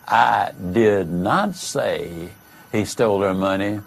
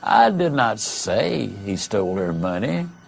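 First: The stress is on the word 'not'. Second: The stress is on the word 'I'. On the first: The speaker firmly denies saying it. "is a vigorous denial that you said it" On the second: Someone else said it. "implies the statement was said, but by someone else"

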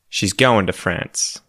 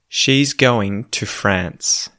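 First: Words are said fast and run together. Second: Every word is said slowly and clearly. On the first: "read it quickly in, you know, colloquial Australian English" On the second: "proper, well-enunciated, well-pronounced English"

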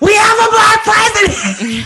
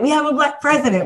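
First: It is said in a higher, bigger voice. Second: It is said in a lower, calmer voice.

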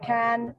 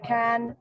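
First: The vowel sounds like the one in 'cat'. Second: The same.

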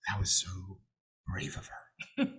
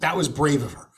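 First: It is said in an imitation of her brother's voice. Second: It is said in the speaker's own voice.

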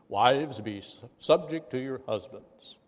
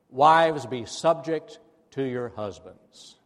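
First: It is said in a deeper, solemn put-on voice. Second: It is said in an ordinary speaking voice.

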